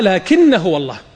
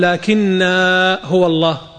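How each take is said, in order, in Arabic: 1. الحركة في آخر الكلمة الأولى قصيرة. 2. الحركة في آخر الكلمة الأولى ممدودة. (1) "وعند الوصل تقرأها لكن هو الله" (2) "غلط، لا تقول لكن هو الله، هو يشوف المد فيمدها"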